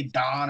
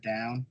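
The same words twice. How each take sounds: First: "don" with an open ah vowel; regional vowel. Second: Said in the usual way. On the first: Shown as a demonstration. Teasing Pittsburgh speech, "don" with a flattened ah. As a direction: say "don" with ah where ow would be. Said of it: "You say don instead of down". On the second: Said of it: "don instead of down".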